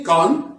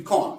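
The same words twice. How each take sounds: First: कॉन with an open American vowel; American pronunciation. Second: कॉन with a rounded British vowel; British pronunciation. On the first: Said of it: "American इसको कॉन कहते हैं". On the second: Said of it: "British इसको". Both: Shown as a demonstration.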